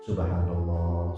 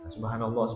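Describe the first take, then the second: First: It is said with deep, heartfelt feeling. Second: It is said plainly, without feeling.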